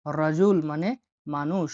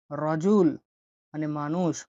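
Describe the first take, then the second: No difference in how they are said.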